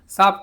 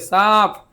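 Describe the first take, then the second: First: The word is said plainly without extra force. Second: The word is said with extra breathy force.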